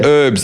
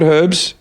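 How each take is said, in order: First: HERBS said as "erbs", no H; silent H. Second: HERBS with an audible H at the front; H sounded. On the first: Retold or imitated. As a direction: drop the h from "herbs". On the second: Shown as a demonstration. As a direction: say "Herbs" with a breathed h first. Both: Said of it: "There's an H on it".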